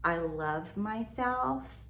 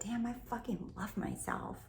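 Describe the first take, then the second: First: Slow, careful textbook affirmation. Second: Softer, casual swearing affirmation; her own casual way. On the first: Coach showing the standard affirmation, slow and careful. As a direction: spell it out like a by-the-book example. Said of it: "if you say". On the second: Coach showing her own blunt version, softer and casual. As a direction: say it the way you'd really talk. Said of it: "That sounds like me". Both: Shown as a demonstration.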